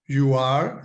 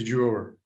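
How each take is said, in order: First: The two words are said separately in full. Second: The two words are joined into one syllable.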